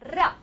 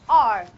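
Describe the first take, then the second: First: The r is a rolled trill. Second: The r is made with the tongue curled back. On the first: "Trell, we call it"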